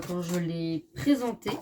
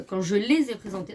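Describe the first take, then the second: First: "l'ai présentée" said as singular, "je l'ai" without the z; singular slip "quand je l'ai présentée" before correcting; slip of the tongue. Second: "les ai présentées" with a clear z linking "les" to "ai"; self-correction. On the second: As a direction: correct it to plural with the liaison in "les ai". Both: Real, not acted.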